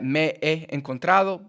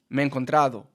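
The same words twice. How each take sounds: First: The words are said separately, without linking. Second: The words merge with a slightly lengthened vowel. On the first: "That me he encontrado becomes" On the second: "a slight extension of the vowel of the Sinalofa can be noticed"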